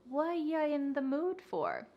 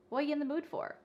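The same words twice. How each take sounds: First: The phrase is said slowly, word by word. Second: The phrase is said very fast and linked. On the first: The speaker calls it wrong. "You don't want to say this reduction slowly" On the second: The speaker calls it right. "it's super fast"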